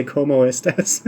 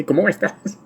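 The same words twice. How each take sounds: First: Said in the usual way. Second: High, hammed-up bandit-movie Mexican accent on "¿Cómo estás?". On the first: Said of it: "I can't just say". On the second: Shown as a demonstration. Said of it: "I have to say".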